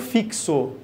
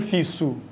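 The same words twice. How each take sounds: First: The x is pronounced as a ks sound. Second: The x is pronounced as a plain s sound. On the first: The speaker calls it right. "Você pronuncia como fixo. Entre aspas, você tem aqui um som de K S" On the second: The speaker calls it wrong. "você não pronuncia como fixo, não é som de S"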